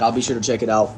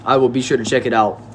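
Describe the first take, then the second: First: Said in the usual way. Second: "will" spelled out in full and leaned on; stress on will. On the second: Shown as a demonstration. Streamer assuring a viewer he'll look, stressing "will". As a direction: promise it, hit "will".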